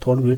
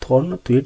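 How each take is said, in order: First: The second part begins with a plain 'w' sound. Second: The second part begins with a 'thw' sound. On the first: The speaker calls it right. "इसे थॉर्न वट बोलते हैं या थॉर्न वेट बोल देते हैं" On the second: The speaker calls it wrong. "आपने बुकों में देखा हुआ थॉर्न थ्वेट नहीं बोलते"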